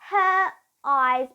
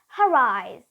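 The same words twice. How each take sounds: First: The words are said separately without a linking R. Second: The words are joined with a linking R sound. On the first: The speaker calls it wrong. "we won't say her eyes" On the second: The speaker calls it right. "we will use that linking R"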